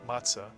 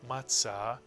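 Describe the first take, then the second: First: It is said in a non-Sephardic accent. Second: It is said in a Sephardic accent. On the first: "you'll hear many people say matzah"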